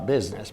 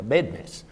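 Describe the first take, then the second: First: It is said with a standard pronunciation. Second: It is said with a Texan pronunciation. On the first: "not a business" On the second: "down in Texas where I come from, they pronounce it a business"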